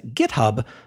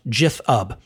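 First: The word begins with a hard G sound. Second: The word begins with a J sound. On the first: The speaker calls it wrong. "mispronounces itself as GitHub" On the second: The speaker calls it right. "is actually pronounced Jithub"

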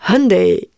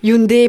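First: It is said the Korean way. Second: It is said the French-speaking way. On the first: "Mais en Corée, c'est Hyundai" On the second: "plutôt francophone"

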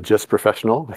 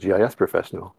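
First: GIS is said as a single word. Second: GIS is said as separate letters. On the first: The speaker calls it wrong. "No one would say that" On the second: The speaker calls it right. "They would say"

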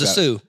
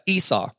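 First: The name is said with a misread pronunciation. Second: The name is said with its standard pronunciation. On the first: The speaker calls it wrong. "I thought it was a Sioux" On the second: The speaker calls it right. "In the Bible, it's Esau"

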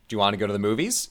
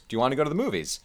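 First: The question has an American-style intonation. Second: The question has a British-style up-down intonation. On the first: "Is the kind of English American version" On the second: "The British version"

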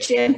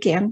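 First: The name begins with a soft J sound. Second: The name begins with a hard G sound. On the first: The speaker calls it wrong. "some people say Jen" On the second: The speaker calls it right. "but it's actually Genn"

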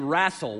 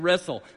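First: The first vowel sounds like the 'a' in 'cat'. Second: The first vowel sounds like the 'e' in 'bed'. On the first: "They say wrassle with an A" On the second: "Some of my good friends never say wrestle"

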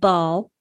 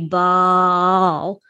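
First: The first sound is repeated several times. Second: The first sound is held out for long. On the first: "if you wanted to say the word ball with a sound repetition" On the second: "a prolongation is holding out along one of the first syllables"

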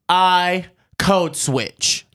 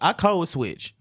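First: It is said loudly and forcefully, with confidence. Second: It is said in a casual, ordinary voice.

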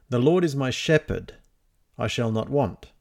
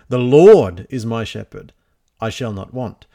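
First: The stress falls on "shepherd". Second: The stress falls on "Lord".

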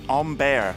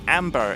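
First: The first vowel is like the 'o' in on. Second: The first vowel is like the 'a' in cat. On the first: The speaker calls it right. "it's omber" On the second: The speaker calls it wrong. "apparently it's not amber"

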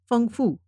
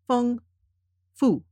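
First: The syllables are said quickly and run together. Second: The syllables are said slowly with gaps between. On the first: "then I will read them faster, closer together" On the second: "I will read the characters sort of spaced"

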